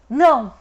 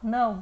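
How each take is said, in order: First: It is said in an angry, harsh tone. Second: It is said in a plain, neutral tone.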